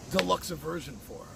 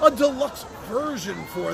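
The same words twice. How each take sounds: First: "deluxe version" with a stray "uh" before "version"; slip of the tongue. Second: Said in the usual way. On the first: Real, not acted. Host fumbling the name of a bigger edition, slip of the tongue. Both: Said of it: "Did I actually just say that?".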